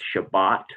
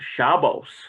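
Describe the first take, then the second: First: The word ends with a t sound. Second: The word ends with an s sound. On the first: This is one community's pronunciation. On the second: This is another community's pronunciation. "some will say Shabbos"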